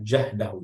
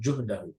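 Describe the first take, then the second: First: The first vowel is an open 'a' sound. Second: The first vowel is a rounded 'u' sound. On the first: The speaker calls it right. "Bifathil jim, ini jah, ini dibacanya jahdahu ya" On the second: The speaker calls it wrong. "bukan juhdahu"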